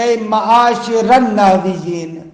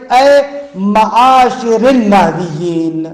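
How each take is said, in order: First: معاشر said plainly as معاشر, with no kasra before النحویین; wrong reading. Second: معاشر ends in a clear kasra, معاشرِ النحویین, slowly spelled out; correct reading. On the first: Retold or imitated. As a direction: read اے معاشر النحویین the common wrong way, معاشر without the i ending. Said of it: "یہ غلط ہے". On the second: Shown as a demonstration. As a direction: say معاشرِ with a distinct i before النحویین, careful slow teaching read. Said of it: "اگر اے ہے تو پھر اس کو پڑھے".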